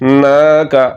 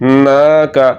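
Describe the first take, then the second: First: The vowel after n is held long. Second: The same.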